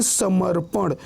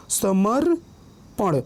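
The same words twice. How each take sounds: First: Said in the usual way. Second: समर्पण very slow, long pause after समर; split pronunciation. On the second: Shown as a demonstration. Teacher showing reph before प, समर्पण slowly split. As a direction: hold समर, then drop पण separately in समर्पण. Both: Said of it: "पहले रेफ का उच्चारण आ रहा है".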